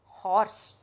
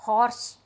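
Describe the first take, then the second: First: हॉर्स repeated with the h clearly sounded; h pronounced. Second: हॉर्स said with a clear h at the start; h pronounced. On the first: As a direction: let the h be heard in हॉर्स. (हॉर्स दोबारा, ह के साथ) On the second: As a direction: sound the h in हॉर्स. (हॉर्स में ह साफ़ बोलें) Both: Shown as a demonstration. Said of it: "हॉर्स में ह आ रहा है".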